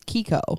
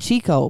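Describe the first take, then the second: First: The word begins with a k sound. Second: The word begins with a ch sound. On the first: The speaker calls it right. "but it's Kiko" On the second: The speaker calls it wrong. "which I've always called"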